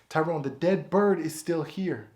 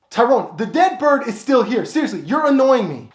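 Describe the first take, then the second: First: Said in the usual way. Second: Raised, higher, fed-up complaint; annoyed [name]. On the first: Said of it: "preview before take". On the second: Acted. [name] complaining to Tyrone about the bird, annoyed. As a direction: complain to your roommate, fed up.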